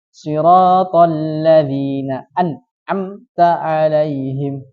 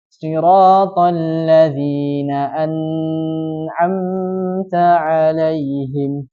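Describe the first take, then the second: First: The n sound is stopped with no flow. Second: The n sound is stretched out too long. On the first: "Contoh yang salah, yang tidak mengalir" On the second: "tidak boleh juga memanjangkannya. Contohnya yang salah"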